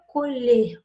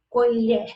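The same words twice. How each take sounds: First: The last syllable has a closed vowel. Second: The last syllable has an open vowel. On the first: It is the verb meaning to harvest. "o som é mais fechado" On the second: It names a spoon, the object. "eu tenho esse som da última sílaba mais aberto"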